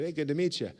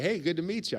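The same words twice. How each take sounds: First: Said in the usual way. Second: Imitating an eager newcomer, pitched higher; bright, keen hello from a happy stranger; super happy greeting. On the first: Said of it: "I said". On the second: New guy at the clinic greets the speaker, mock cheerful and higher. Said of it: "He's, like, super happy".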